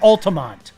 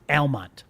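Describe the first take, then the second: First: The name is said with three syllables. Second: The name is said with two syllables. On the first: The speaker calls it wrong. "I'm doing it on purpose now" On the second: The speaker calls it right. "That's the only time I'm ever going to say it right"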